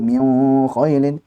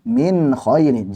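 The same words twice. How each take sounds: First: The n is blurred and hidden into the next sound. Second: The n is pronounced clearly without extra nasal length. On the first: The speaker calls it wrong. "Jangan pula diifakan tadi min khailin" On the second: The speaker calls it right. "jelaskan min khailin"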